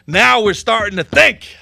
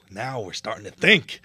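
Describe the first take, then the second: First: Much louder, slower and higher; emphatic approval. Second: Said in the usual way. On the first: Real, not acted. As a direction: proclaim it with relish. Repeats phrase louder second time.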